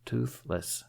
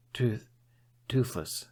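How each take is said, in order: First: Said in the usual way. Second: Breathless, halting Toothless; out of breath. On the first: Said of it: "repeating the name". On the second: A narrator's reading. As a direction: gasp the name out. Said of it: "sounding a bit out of breath".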